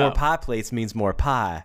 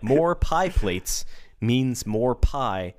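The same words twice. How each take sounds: First: It is said in a Southern American accent. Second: It is said in a plain, neutral accent. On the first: The speaker calls it right. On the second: The speaker calls it wrong.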